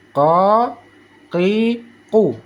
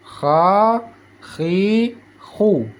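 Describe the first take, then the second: First: K from the tongue root in "Ka, ki, ku"; single-tap qaf. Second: "Kha, khi, khu" with throaty friction; flowing rasped KH in "Kha, khi, khu"; vibrating kha. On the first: Teacher reviewing the contrast, "Ka, ki, ku" knocked once each. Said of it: "sekali ketuk". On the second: Teacher reviewing the letter, "Kha, khi, khu" scraped. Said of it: "dia seperti ada getaran". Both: Shown as a demonstration.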